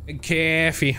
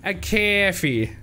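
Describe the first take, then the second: First: Imitating his coffee. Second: Higher, slow, drawn-out "A coffee"; imitating his odd coffee. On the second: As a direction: stretch out "coffee" slowly, mock-quoting him. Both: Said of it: "why he said it like that".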